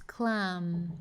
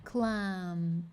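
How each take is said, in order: First: The word ends with the lips closed. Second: The same.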